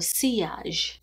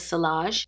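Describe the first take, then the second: First: The double L is pronounced like a Y. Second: The double L is pronounced like an L. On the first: The speaker calls it right. "That's how you say it in French" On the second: The speaker calls it wrong. "I thought it was Sillage, but the L's are Y's"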